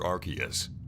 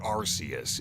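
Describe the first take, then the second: First: The name is pronounced the Western way. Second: The name is pronounced the Japanese way.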